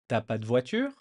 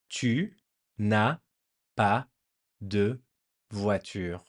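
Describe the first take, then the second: First: The 'ne' is dropped and 'tu' shrinks to 't'. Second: Every word is said in full, including 'ne'. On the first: "the French just drop the first N apostrophe" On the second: "how do you say the negative form now? You would say"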